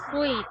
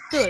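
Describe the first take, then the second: First: The vowel is a long 'ee' sound. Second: The vowel is a long 'oo' sound. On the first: The speaker calls it wrong. "The pronunciation is not sweet" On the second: The speaker calls it right. "it's suit"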